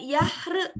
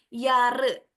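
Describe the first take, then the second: First: An h sound is heard in the middle. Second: No h sound is heard in the middle. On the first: The speaker calls it wrong. "jangan yahre, huruf H-nya nggak usah dibaca" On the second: The speaker calls it right. "setiap huruf H yang ada di tengah itu tidak usah terdengar"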